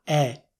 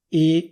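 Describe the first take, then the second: First: The E vowel is open. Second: The E vowel is closed. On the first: "ma è una E" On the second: "non è più una E"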